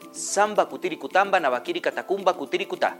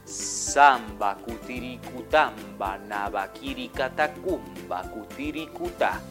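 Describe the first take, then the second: First: The phrase is said at a normal, quicker pace. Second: The phrase is said slowly, in slow motion.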